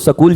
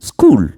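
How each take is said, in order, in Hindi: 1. s और k के बीच एक स्वर जोड़ा जाता है। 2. s और k को एक साथ संयुक्त व्यंजन की तरह बोला जाता है। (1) "बिहार में तो आज भी लोग सकूल ही पढ़ते हैं" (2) "पर उसको बोलते हैं स्कूल"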